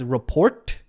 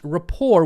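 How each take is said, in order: First: The final T sound is pronounced. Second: The final T sound is silent. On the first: The speaker calls it wrong. "rapport looks like it is pronounced as report" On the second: The speaker calls it right. "actually pronounced rapport with a silent T"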